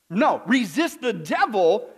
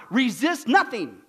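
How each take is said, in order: First: Slow, firm correction with NO set apart; correcting the verse. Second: Slow, teasing misreading of the verse; deliberately wrong reading. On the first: Preacher correcting his own planted misreading for the congregation, slow and firm. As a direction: hit No, then spell out resist the devil slowly. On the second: Preacher misreading scripture to test his congregation, slow and teasing. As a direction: drag out the wrong word to bait the crowd. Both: Shown as a demonstration.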